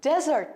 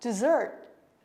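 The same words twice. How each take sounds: First: It sounds like the word for sandy wasteland. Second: It does not sound like that other word. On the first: The speaker calls it wrong. "हामी यो शब्द एउटा अर्को शब्दसँग झुक्किन्छौं डेजर्ट अर्थात मरुभूमि" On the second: The speaker calls it right. "Correct pronunciation"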